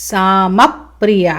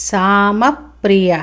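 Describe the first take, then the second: The two takes are said the same way.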